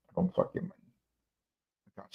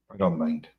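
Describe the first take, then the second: First: Repeats it under his breath, softer; a whispered aside to himself. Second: Said in the usual way. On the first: Real, not acted. Whispering to the camera that he doesn't mind the glasses.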